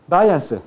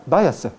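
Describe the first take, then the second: First: "Váyanse" with the n fully sounded; standard pronunciation. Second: "Váyanse" said as "váyase"; dropped n. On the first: Teacher gives the standard form first, "Váyanse" with n. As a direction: keep a clear n before "se" in "Váyanse". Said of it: "Pero ¿cómo se pronuncia?". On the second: Teacher demonstrates lowland elision, "Váyanse" without its n. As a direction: leave the n out before "se" in "Váyanse". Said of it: "Se elimina". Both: Shown as a demonstration.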